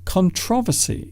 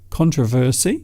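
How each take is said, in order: First: The stress is on the second syllable. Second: The stress is on the first syllable. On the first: "the emphasis or stress is on the second syllable" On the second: "controversy is the first one"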